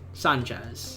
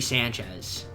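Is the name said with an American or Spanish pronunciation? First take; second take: Spanish; American. First: The name is said with Spanish-style pronunciation. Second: The name is said with American English pronunciation. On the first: "but Sanchez sounds cooler" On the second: "I would say like an American"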